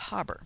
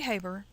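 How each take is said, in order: First: The name is said with a German-style pronunciation. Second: The name is said with an English-style pronunciation. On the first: "it's a German word, so I think ... one would say that as Haber" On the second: "Some people say Haber"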